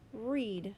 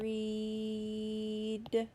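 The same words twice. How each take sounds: First: The word is said quickly as normal. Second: The word is drawn out slowly, sounds held. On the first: "Say it fast" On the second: "say the word slowly without stopping between the sounds"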